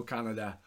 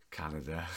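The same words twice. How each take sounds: First: Said in the usual way. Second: Canada. dropped very low and rising at the end; deep drawn Canada. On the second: Shown as a demonstration.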